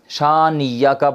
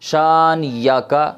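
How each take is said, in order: Both takes have the same delivery.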